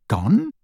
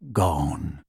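First: Higher, rising disbelief; stunned echo. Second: Low, flat, final house elf; grim elf voice. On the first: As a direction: echo it in shock. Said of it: "echoed Harry". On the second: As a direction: drop the word heavily. Elf answers, Harry echoes. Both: Acted.

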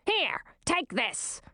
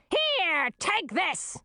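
First: High, slow, curt command; curt queen. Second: High, strident scream of the queen; queen's scream. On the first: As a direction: push it into her hands. Queen hands over sword. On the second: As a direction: scream it out as you hurl things. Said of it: "screamed the queen". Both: A narrator's reading.

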